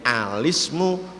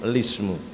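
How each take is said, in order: First: The word begins with an 'a' vowel. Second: The word begins directly with an 'l' sound. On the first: The original sukun before the lam is remembered. "yang alismu kok masih ada hamzahnya" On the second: The lam already carries a vowel, so no hamzah is needed. "Kalau lismu berarti karena sudah dikasroh, hamzahnya tidak diperlukan"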